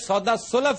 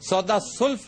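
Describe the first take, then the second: First: A vowel is heard between l and f. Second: No vowel is heard between l and f. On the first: The speaker calls it right. "ये सौदा सुलफ है" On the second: The speaker calls it wrong. "सौदा सुल्फ नहीं"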